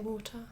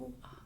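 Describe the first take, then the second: First: It is said carefully with the t pronounced. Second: It is said fast with the t dropped. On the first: The speaker is speaking normally without rushing. "I would say water" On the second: The speaker is rushing and shouting in a loud place. "It might come out like that"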